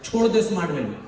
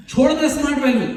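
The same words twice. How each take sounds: First: Said in the usual way. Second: Father insisting "छोड़ दे smart value" with more force; mock scolding repeat. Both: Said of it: "लगे वहीं पे सुनाने".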